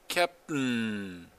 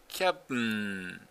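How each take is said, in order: The two takes are said the same way.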